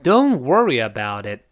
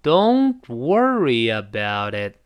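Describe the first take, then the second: First: It is said fast. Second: It is said slowly.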